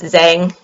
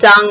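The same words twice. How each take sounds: First: The name is said in an anglicized way. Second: The name is said in a Mandarin way. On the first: The speaker calls it wrong. "sometimes you hear it pronounced Zhang" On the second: The speaker calls it right. "Zhang is actually how you say his last name"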